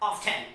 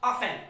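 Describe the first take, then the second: First: The word is said with a T sound. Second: The word is said without a T sound. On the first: The speaker calls it wrong. "not often" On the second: The speaker calls it right. "Here we will pronounce it what? Often"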